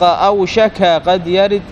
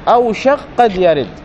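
First: The k carries a vowel before the q. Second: The k merges into a doubled q sound. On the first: The verse's meter is broken. The speaker calls it wrong. "لأنك لو فتحتها ما سيستقيم الوزن" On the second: The verse's meter is kept. The speaker calls it right. "إذا سكن الكاف"

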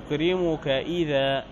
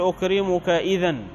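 First: The last word ends with a long a. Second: The last word ends with an n sound. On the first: The speaker calls it right. "تقول أكرمك إذا" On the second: The speaker calls it wrong. "لا تقول أكرمك إذن عند الوقف"

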